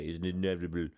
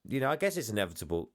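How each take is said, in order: First: Lightly done action-hero voice, a bit lower; a hint of a movie tough guy saying "inevitable" low and deadpan; playful quote of a film star's catchphrase, said lower; Arnie impression. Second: Said in the usual way. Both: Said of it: "as Arnie would say".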